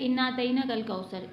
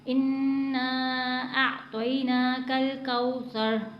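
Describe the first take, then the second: First: The doubled n is short with no nasal hold. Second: The doubled n is nasalized and held long. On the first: The speaker calls it wrong. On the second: The speaker calls it right.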